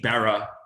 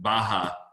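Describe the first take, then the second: First: The middle consonant sounds like an English R. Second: The middle consonant sounds like a J. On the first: The speaker calls it wrong. "I looked like an absolute fool saying a couple of things" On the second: The speaker calls it right. "The R is a J"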